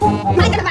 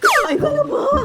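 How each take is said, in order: First: It is asked in an angry tone. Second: It is asked in a scared tone.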